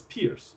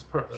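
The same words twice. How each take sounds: First: Pierce said like "peers", with a long ee; variant pronunciation. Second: Peirce said like "purse"; correct pronunciation. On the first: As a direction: say Pierce to rhyme with fierce. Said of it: "which some pronounce as Pierce". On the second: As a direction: say Peirce with an "er" vowel, no ee. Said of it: "the correct pronunciation is Peirce". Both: Shown as a demonstration.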